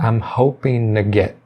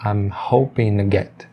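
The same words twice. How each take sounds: First: The words run together, dropping g and t. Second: The same.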